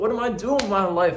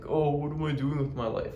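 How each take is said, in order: First: It is said in an urgent, energized tone. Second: It is said in a sad, mopey tone.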